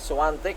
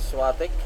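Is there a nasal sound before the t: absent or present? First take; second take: present; absent. First: The name has a nasal sound before the t. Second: The name has no nasal sound before the t. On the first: This is how the name is actually said. "Swantek po yan, silent ah, in" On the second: This is how people commonly say the name. "kadalasan pinopronounce po natin na Swatek"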